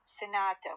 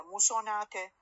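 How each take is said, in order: First: سناتا said with a short light first vowel, sinata; سناتا with the first vowel cut short; sanata not sonata. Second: سوناتا said with a full o in the first syllable; سوناتا with a clear o after the s; wrong vowel. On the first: Teacher to class: سناتا with a short first vowel. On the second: Teacher to class, showing the wrong form: o in سوناتا. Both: Shown as a demonstration.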